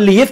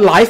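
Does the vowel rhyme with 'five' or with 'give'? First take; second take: give; five. First: The vowel rhymes with 'give'. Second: The vowel rhymes with 'five'. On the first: It is used as a verb meaning to reside. "แต่ตัวนี้ออกเสียงว่า live เขียนเหมือนกันเลยแต่ออกเสียงว่า live เป็น verb" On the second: It is used as an adjective meaning broadcast in real time. "ออกนั้นก็เสียงว่า live เหมือนกันเป็น adjective"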